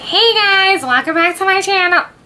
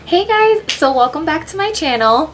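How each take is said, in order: First: It is said in an exaggerated, annoying voice. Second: It is said in her normal voice.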